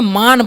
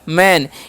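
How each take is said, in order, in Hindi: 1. स्वर एक लंबी खुली 'aa' ध्वनि है। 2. स्वर एक सपाट अग्र 'ae' ध्वनि है। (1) "मान पढ़ लेंगे। तो इसे मान नहीं पढ़ना है" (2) "ए का उच्चारण ... ए करना है"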